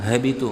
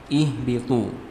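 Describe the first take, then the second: First: The word starts directly without an added opening vowel. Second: The word starts with an added 'i' vowel sound. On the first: The speaker calls it wrong. "habitu nggak bisa" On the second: The speaker calls it right. "harus dimulai dengan menambahkan hamzah wasal"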